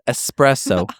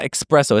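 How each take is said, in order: First: The word begins with a plain 'ess' sound. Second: The word begins with an 'eks' sound. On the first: The speaker calls it right. "it's espresso" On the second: The speaker calls it wrong. "there's no X in that. There's no C K S. It's not espresso"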